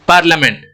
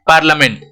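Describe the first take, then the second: No difference in how they are said.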